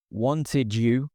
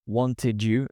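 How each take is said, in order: Both takes have the same delivery.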